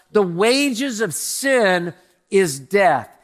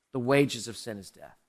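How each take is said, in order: First: "the wages of sin is death" drawn out very slowly and louder; slow emphatic pulpit proclamation. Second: "The wages of sin is death" dropped lower and softer; hushed, solemn echo of the verse; quiet repeat. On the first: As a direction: lean on every word of "the wages of sin is death". Preacher proclaims the verse. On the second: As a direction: let "The wages of sin is death" sink to a hush. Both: Shown as a demonstration.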